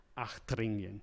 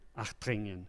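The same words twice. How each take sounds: First: The consonant after the first vowel is an H. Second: The consonant after the first vowel is an H.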